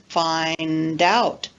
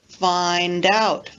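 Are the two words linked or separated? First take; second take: linked; linked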